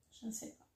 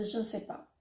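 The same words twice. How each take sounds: First: Whispers it to herself; muttering to herself, unsure; whispered aside. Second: Said in the usual way. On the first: Real, not acted. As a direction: breathe it out, barely voiced. Repeats it under her breath.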